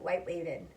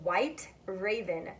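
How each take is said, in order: First: Raven starts with a W-like sound. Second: Raven starts with a clear R sound. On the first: The speaker calls it wrong. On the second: The speaker calls it right. "So right"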